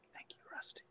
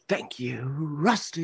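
First: It is said at a quieter volume. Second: It is said at a louder volume.

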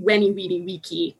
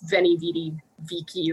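First: It is said in classical Latin pronunciation. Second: It is said in the popular pronunciation. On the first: "in classical Latin it would be" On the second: "people know it as"

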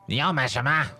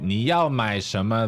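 First: The question is asked in a rude tone. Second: The question is asked in a neutral tone. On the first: The asker is being impolite. "if they had a rude tone of voice" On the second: The asker is simply being ordinary. "they're just being normal"

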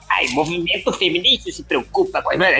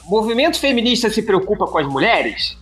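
First: It is read in a put-on reader voice. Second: It is read in his normal voice.

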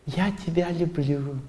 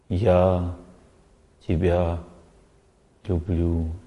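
First: It is said with showy, surface emotion. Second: It is said deeply, from the heart.

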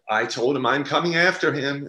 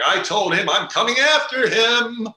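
First: It is said quietly and low, toned down. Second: It is said loudly, projected like theater.

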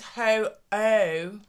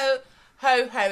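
First: The second syllable begins with a bare vowel. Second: The second syllable begins with an h sound. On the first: The speaker calls it right. "It's ho oh" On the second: The speaker calls it wrong. "It's not ho ho ho"

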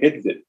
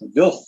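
First: The name starts with a vowel sound. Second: The name starts with a V sound. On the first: The speaker calls it wrong. "before I heard it pronounced correctly, I was calling it Idvid" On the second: The speaker calls it right. "It's actually pronounced Vilf"

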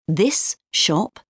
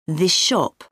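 First: This ends with an s sound. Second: This ends with an sh sound.

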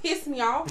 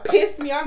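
First: It is said in a plain, casual way. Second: It is said loudly and forcefully.

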